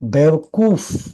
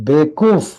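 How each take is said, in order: First: The middle wa syllable is fully pronounced. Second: The middle wa syllable is dropped.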